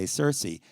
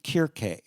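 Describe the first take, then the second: First: The name begins with a soft S sound. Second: The name begins with a hard K sound. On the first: This is the modern pronunciation. "the C got soft and we say Cersei" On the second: This is the ancient Greek pronunciation. "the Greeks said her name Kirke"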